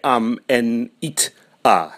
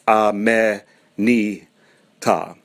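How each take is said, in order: First: Each consonant closes the syllable before it. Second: Each consonant opens the syllable after it. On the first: The speaker calls it wrong. "you can't say am en it a" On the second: The speaker calls it right. "It's a me ni ta"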